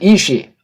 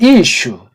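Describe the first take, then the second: First: The word ends with an 'ee'-like vowel. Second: The word ends with an 'oo'-like vowel. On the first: The speaker calls it wrong. "어떤 사람은 이시" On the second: The speaker calls it right. "남자는 이슈"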